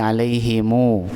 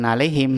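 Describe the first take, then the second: First: The m is followed by a lengthened u vowel. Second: The word ends on a closed m sound. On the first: The speaker calls it right. "tapi alaihimu. Dibaca dua harokat" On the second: The speaker calls it wrong. "bukan alaihim"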